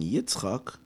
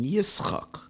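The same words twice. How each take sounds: First: The middle consonant is a 'ts' sound. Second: The middle consonant is an 's' sound. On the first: "you're not saying Yitzchak" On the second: "you're saying Yitzchak with a sin"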